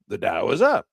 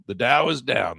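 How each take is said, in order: First: "The Dow is up" brisker, rising on UP; good-news intonation. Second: "the Dow is down" drawn out slowly, DOWN falling; slow, sinking fall on DOWN; bad-news intonation. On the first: Trader showing what good sounds like, upbeat. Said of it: "That's good". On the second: Trader showing what bad sounds like, downbeat. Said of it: "That's bad". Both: Shown as a demonstration.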